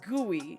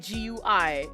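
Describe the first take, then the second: First: It is said as one word, gooey. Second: It is said as three separate letters. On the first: The speaker calls it right. "every person pronounces graphical uni- user interface, G U I, as G U I" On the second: The speaker calls it wrong. "They do not say G U I"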